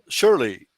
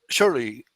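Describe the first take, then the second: The two takes are said the same way.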